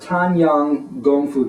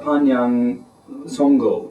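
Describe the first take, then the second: First: It is said in the standard Mandarin form. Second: It is said in the regional dialect form. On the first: "the Mandarin pronunciation" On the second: "more of the uh, regional dialect"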